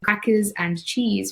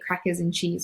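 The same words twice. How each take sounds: First: The d in and is pronounced. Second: The d in and is left out.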